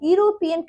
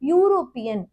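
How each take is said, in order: First: It begins with a plain vowel sound, no y. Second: It begins with a yoo sound, starting with y. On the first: The speaker calls it wrong. "யூரோப்பியன் கிடையாது" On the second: The speaker calls it right. "இதே sound தான் வருது"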